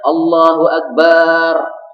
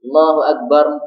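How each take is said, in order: First: The vowel in the last syllable is drawn out. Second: An m sound is added at the end. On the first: It turns the word into the name of a drum. "Yang panjang adalah bagian akhirnya" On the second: The lips close after the last syllable without intending it. "ada mimnya di akhirnya"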